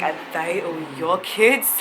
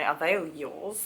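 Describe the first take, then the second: First: It is asked in an amazed, curious tone. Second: It is asked in a disgusted, judging tone.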